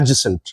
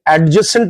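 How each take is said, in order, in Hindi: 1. j से पहले d की ध्वनि मौन होती है। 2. j से पहले d की ध्वनि स्पष्ट रूप से उच्चारित होती है। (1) "क्या बोला जाता है?" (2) "जैसे एडजेसेंट ना बोल के"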